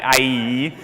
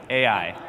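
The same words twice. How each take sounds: First: "I E" as "eye-ee", the vowels swapped round; mistaken pronunciation. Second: "Ai" low, as "ay-eye"; said as spelt. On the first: Teacher showing the class what to avoid, mistaken pronunciation. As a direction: say "I E" like "eye" followed by "ee". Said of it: "Not I E". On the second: Teacher repeating the town's name for the class, said as spelt. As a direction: say "Ai" as the letter A, then the letter I. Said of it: "Just say it like it looks". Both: Shown as a demonstration.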